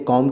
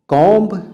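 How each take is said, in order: First: No final b sound is pronounced. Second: A final b sound is pronounced. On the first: The speaker calls it right. "कॉम कहते हैं" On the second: The speaker calls it wrong. "कॉम्ब नहीं कहते"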